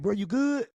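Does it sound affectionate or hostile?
affectionate. It sounds warm and affectionate.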